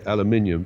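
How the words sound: It is said the British way, five syllables. "We Brits normally say aluminium"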